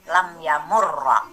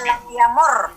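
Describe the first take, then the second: First: The verb ends on a doubled consonant plus vowel. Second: The verb ends abruptly on a consonant sound. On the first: The speaker calls it right. "sukunnya diganti fathah" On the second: The speaker calls it wrong. "Kenapa tidak dibaca lam yamur gitu ya?"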